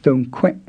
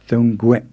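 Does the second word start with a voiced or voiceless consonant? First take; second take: voiceless; voiced. First: The second word starts with a voiceless k sound. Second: The second word starts with a voiced g sound. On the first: The speaker calls it wrong. "You don't say thong kwe" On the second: The speaker calls it right. "you say thong kwe"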